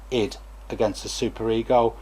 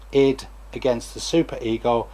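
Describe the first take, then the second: No difference in how they are said.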